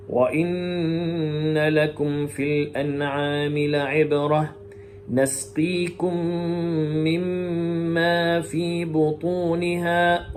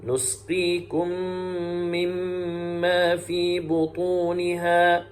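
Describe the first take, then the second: First: نسقيكم chanted with an "a" after the noon, nasqikum; slow tajweed chant, نسقيكم opening on "na"; Shu'ba reading. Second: نسقيكم chanted with "u" after the noon, nusqikum; slow tajweed chant, نسقيكم opening on "nu"; Hafs reading. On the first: Teacher showing Shu'ba's reading, slow chant with نسقيكم as nasqikum. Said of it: "يقرأ فيها شعبة كلمة نسقيكم بفتح النون". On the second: Teacher showing Hafs's reading, slow chant with نسقيكم as nusqikum. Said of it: "ويقرأ حفص". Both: Shown as a demonstration.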